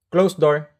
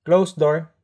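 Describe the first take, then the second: No difference in how they are said.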